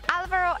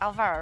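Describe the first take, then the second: First: The stress is on the first syllable. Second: The stress is on a later syllable. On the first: The speaker calls it right. "normally an accent on the A" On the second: The speaker calls it wrong. "and not"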